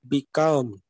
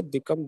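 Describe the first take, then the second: First: "become" with COME stretched and pressed; stress on second syllable. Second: Said in the usual way. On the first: Shown as a demonstration. Teacher shows the actual pronunciation, second-syllable stress. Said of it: "pronunciation will be like become". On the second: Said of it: "We simply say become".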